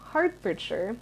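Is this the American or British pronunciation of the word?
American. It is said with an American pronunciation. The speaker calls it wrong. "it isn't Hertfordshire"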